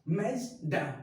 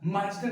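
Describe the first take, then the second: First: The first vowel is like 'a' in 'cat'. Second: The first vowel is an open 'ah' sound. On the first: The speaker calls it right. "It's a मैजडा" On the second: The speaker calls it wrong. "माजडा नहीं"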